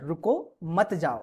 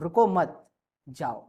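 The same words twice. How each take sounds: First: There is a pause right after 'ruko'. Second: There is a pause right after 'mat'. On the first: The listener is asked to stay. "रुको के बाद comma है" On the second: The listener is told to go. "मतलब अब आपसे मैं जाने को कह रहा हूं"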